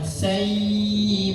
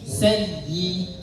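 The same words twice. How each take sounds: First: The vowel is drawn out long. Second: The doubled ya is pressed, short and firm. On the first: The speaker calls it wrong. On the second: The speaker calls it right.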